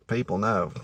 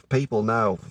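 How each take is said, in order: Both takes have the same delivery.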